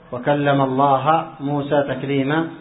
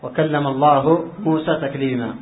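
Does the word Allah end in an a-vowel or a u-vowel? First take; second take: a-vowel; u-vowel. First: Allah ends with an a-vowel. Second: Allah ends with a u-vowel. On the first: Moses did the speaking and God listened. The speaker calls it wrong. "قالوا وكلم الله بالفتح" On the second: God did the speaking. The speaker calls it right. "لو كانت مرفوعة بالضمة"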